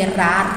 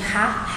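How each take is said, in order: First: The R is a quick trembled tongue sound. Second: The R is a strong, forceful sound. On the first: "Quando ele tem esse somzinho tremido" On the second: "A gente fala de som forte, gente, é quando tem o som de Rá"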